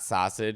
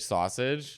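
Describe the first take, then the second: First: The word has a Chicago accent. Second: The word has a standard accent. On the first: The speaker calls it wrong. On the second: The speaker calls it right.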